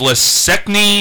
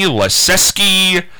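First: The name is garbled, with a muddled middle. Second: The name is said with a clear 'zew' middle. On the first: The speaker calls it wrong. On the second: The speaker calls it right.

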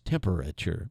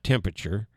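First: The word is said with every syllable fully sounded. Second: The word is said with reduced, dropped syllables. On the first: The speaker calls it right. "It's temperature" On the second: The speaker calls it wrong. "It's not temperature"

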